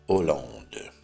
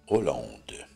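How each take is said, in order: No difference in how they are said.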